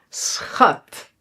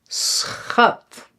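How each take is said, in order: The two takes are said the same way.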